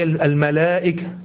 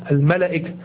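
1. الحركة بعد l طويلة. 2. الحركة بعد l قصيرة. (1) "لكن هي الملائكة" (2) "لو نطقناها حسب الكتابة الإملائية فتقول الملائكة"

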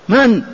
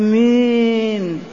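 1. الكلمة تُقال قصيرة وبسيطة وحازمة. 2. الكلمة تُمَدّ بطريقة ناعمة ومائلة. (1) "هكذا قولا معروفا" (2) "لم هذه الإمالة هذه؟"

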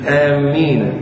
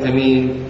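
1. صوت الميم يُشدَّد ويُمدّ. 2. الحركة الأولى قصيرة ومقطوعة. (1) "كيف تشدد الميم؟" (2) "والهمزة"

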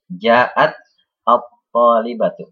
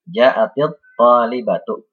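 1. Kedua kata dibaca terpisah, masing-masing sendiri. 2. Kata-kata itu dihubungkan dengan vokal i yang disisipkan. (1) "jika ingin dibaca sendiri-sendiri ya, tidak kita baca bersambung" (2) "jika ingin dibaca bersambung ya ... diubah menjadi kasrah"

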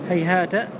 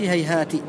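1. يتبع الحرف الأخير الساكن الحركة 'a'. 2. يتبع الحرف الأخير الساكن الحركة 'i'. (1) "بالفتح في الوصل في قراءة الجمهور" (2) "وقرأ أبو جعفر: ... بالكسر"

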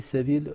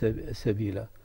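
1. تنتهي الكلمة بدون حرف مدّ زائد. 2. تنتهي الكلمة بمدّ طويل ممدود. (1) "والأخرى لم يمد" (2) "مد السبيل"

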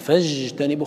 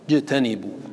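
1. صوت الجيم لين ومستمر. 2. صوت الجيم منحبس تمامًا. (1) "خطأ... لأن هذا رخو" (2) "الجيم شديدة. اجعل فيها شدة"

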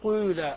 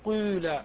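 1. الحركة الأولى تقع بين الكسرة والضمة. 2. الحركة الأولى تقع بين الكسرة والضمة.

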